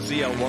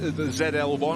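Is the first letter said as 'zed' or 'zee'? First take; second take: zee; zed. First: The first letter is said the transatlantic way. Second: The first letter is said this side's way.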